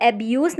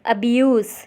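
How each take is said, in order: First: "abuse" with an open "ae" first vowel; open-vowel start on "abuse", as a learner's misreading; mispronounced abuse. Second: "abuse" with a weak "uh" first vowel; corrected abuse. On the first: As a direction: say "abuse" wrongly as "AE-bee-yoos". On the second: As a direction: say "abuse" as "uh-bee-YOOS". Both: Shown as a demonstration. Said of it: "इसे abuse नहीं पढ़ेंगे".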